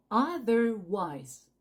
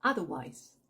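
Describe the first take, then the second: First: "Otherwise" very slow, as "ah-ther-wise"; O near A. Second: "Otherwise" in one lower go, as "atherwise"; natural-speed O as A. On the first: Teacher breaks down Otherwise for learners, O like A. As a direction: stretch Otherwise syllable by syllable, open A start. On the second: Teacher repeats Otherwise whole, O like A. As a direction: say Otherwise quickly, opening on A. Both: Shown as a demonstration. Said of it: "Prononce le O presque comme un A".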